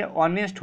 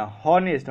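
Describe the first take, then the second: First: ऑनेस्ट said with no h, starting on the vowel; correct pronunciation. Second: हॉनेस्ट said with a clear h sound at the start; wrong pronunciation. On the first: Teacher giving students the right way to say honest. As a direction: open ऑनेस्ट straight on the vowel, silent h. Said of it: "यहाँ पे actually होता है क्या?". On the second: Teacher showing students the wrong way to say honest. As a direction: voice the h in हॉनेस्ट as the mistake. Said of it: "हॉनेस्ट मत पढ़ना". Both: Shown as a demonstration.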